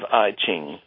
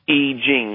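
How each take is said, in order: First: It is said with an English-style pronunciation. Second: It is said with a Mandarin Chinese pronunciation. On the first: "which they mostly would pronounce I Ching" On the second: "the Chinese say I Ching"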